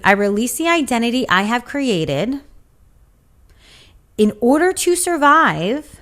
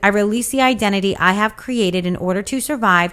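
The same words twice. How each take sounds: First: It is read at a slower pace. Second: It is read at a normal, quicker pace.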